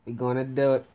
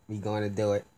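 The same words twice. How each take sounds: First: Pumped up. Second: Said in the usual way. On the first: Real, not acted. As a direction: psych yourself up.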